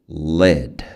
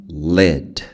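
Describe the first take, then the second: First: The vowel is a short, lax 'ih' sound. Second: The same.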